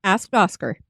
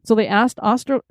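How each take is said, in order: First: "Asked Oscar" with both k sounds crisp, /æskt ɑskər/; "Asked Oscar" with the k in each word said; clear "Asked Oscar". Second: "asked Oster" with the k and c dropped, /æst ɑstər/; "asked Oster" run together with no k; slurred "asked Oster". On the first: Shown as a demonstration. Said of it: "Try one more time". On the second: Real, not acted. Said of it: "I can't do asked and Oscar together".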